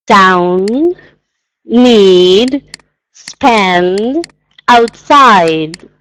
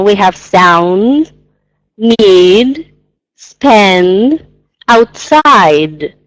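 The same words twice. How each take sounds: First: Word by word, D endings overdone; teacher's overdone articulation; exaggerated pronunciation. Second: Slow, each final D overdone; teacher's overdone articulation; exaggerated pronunciation. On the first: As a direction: lean on every final D. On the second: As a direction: draw out the D endings. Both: Shown as a demonstration. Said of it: "again, it's exaggerating a little bit".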